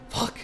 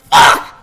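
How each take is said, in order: First: It is muttered quietly under the breath. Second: It is shouted loudly and gutturally.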